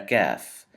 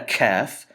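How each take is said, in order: First: The k is released without a puff of air. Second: The k is released with a puff of air. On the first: The speaker calls it right. "but a Kaf" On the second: The speaker calls it wrong. "Not a Kaf"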